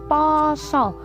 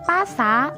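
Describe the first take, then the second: First: The vowels are pronounced as o. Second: The vowels are pronounced as a. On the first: "diwaca dadi poso. Huruf A-ne berubah dadi O" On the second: "ana tulisan pasa"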